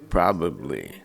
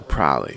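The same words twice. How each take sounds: First: Every syllable is said clearly and fully. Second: Syllables are dropped, making it short. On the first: The speaker calls it right. "It should be, of course, probably" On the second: The speaker calls it wrong. "I used to always say probably. ... cutting out a lot of letters, a lot of syllables"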